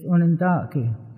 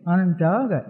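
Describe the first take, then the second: First: The name is said with native Onondaga sounds. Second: The name is said with English-style sounds. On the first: This is how the people name themselves. The speaker calls it right. "The actual pronunciation is Onondaga" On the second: This is the form outsiders gave the name. The speaker calls it wrong. "it was kind of anglicized by people that came round"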